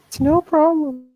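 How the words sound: It is said in a put-on girlish voice.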